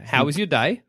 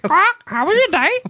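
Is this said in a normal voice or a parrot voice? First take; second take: normal; parrot. First: It is said in an ordinary speaking voice. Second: It is said in a squawky parrot voice.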